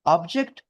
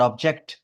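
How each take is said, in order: First: object, weight on its opening syllable; first-syllable stress. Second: object, weight on its final syllable; second-syllable stress. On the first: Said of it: "पहला syllable पे stress करोगे". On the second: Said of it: "second syllable पे stress करोगे". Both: Shown as a demonstration.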